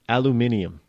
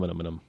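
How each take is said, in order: First: It is said the British way, aluminium. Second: It is said the American way, aluminum.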